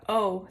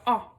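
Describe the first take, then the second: First: The vowel is long, like the letter name. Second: The vowel is short, not the letter name. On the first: "instead of the O sound" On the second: "it makes a short vowel sound"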